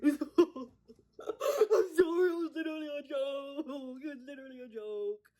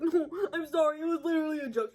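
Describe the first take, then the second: First: Hammed-up hooting apology; friends' imitated guffawing. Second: Higher, louder mock apology; lightly put-on defensive guy voice; imitated apologetic guy. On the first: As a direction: wail it out as if cracking up. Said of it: "His friends are like". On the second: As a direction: mimic a guy backpedaling on his joke. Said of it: "And he's like".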